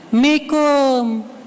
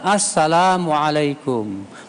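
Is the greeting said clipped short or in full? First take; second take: clipped; full. First: Only the last two syllables are said. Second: Every syllable of the greeting is said. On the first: The greeting is lazily shortened. The speaker calls it wrong. "Kalau ketemu apa katanya? Mikum" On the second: The greeting is given properly. The speaker calls it right. "Yang benar"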